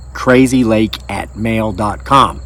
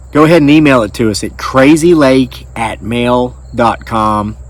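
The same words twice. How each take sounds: First: Slower repeat of the email address, each word clear; slow, spelled-out address. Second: Said in the usual way. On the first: Shown as a demonstration. Host repeating his email address slowly for viewers.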